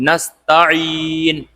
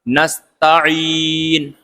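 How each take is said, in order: The two takes are said the same way.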